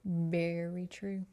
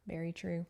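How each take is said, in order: First: Slow, knowing "Very true."; slow emphatic repeat; drawn-out agreement. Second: Said in the usual way. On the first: Shown as a demonstration. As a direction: stretch it out like a verdict.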